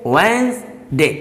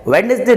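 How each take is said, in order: First: वेंसडे with silent D, wens-day; correct pronunciation. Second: वेडनेसडे with the first D sounded, wed-nes-day; wrong pronunciation. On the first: Teacher gives learners the right sound, slow wens-day. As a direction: say वेंसडे slowly in two parts, wens-day. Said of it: "ये होता है". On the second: Teacher shows learners the common mistake, wed-nes-day pronunciation. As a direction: say वेडनेसडे in three parts, voicing the D. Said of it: "जो कि wrong बोला जाता है". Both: Shown as a demonstration.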